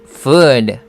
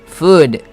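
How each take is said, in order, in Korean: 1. 모음을 길고 늘여서 발음합니다. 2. 모음을 짧고 끊어서 발음합니다. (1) "음식은 food 라고 길게 끌어줘야 됩니다" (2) "만약에 짧게 발음하면 food"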